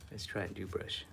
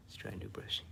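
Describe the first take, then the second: First: Said in the usual way. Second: Repeated in a whisper; whispered reminder to self. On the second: Real, not acted. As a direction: whisper it to yourself. Repeated under the breath.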